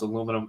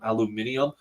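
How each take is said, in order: First: It has four syllables, ending in -num. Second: It has five syllables, ending in -nium. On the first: "I'm going to stick to the American pronunciation" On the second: "British people who pronounce aluminum aluminium"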